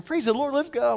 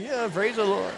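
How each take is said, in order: First: High-pitched, peppy morning cheer; chipper. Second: Half-hearted echo of someone's cheer; grudging agreement. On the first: Retold or imitated. Colleague picking up the pastor at seven, chipper. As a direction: imitate an annoyingly perky early riser. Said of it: "He's all chipper". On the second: Acted. Tired pastor answering his chipper colleague, grudging. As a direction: go along with the cheer reluctantly.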